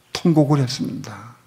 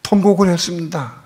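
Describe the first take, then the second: First: Said in the usual way. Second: 통곡을 했습니다 higher, with 통곡을 hit hard; fervent preaching. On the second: Real, not acted. Preacher proclaims to the church how he wept, fervent. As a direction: cry it out from the pulpit.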